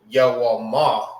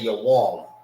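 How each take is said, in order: First: The word ends with an a vowel. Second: The word ends on the m sound. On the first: The speaker calls it wrong. "You don't say Yawama" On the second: The speaker calls it right. "You say your warm. You see you don't say the A at the end"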